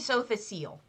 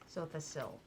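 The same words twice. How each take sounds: First: The last syllable does not sound like 'sill'. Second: The last syllable sounds like 'sill'. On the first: The speaker calls it wrong. "I say Sothasil, and I'm probably wrong" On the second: The speaker calls it right. "You say sill?"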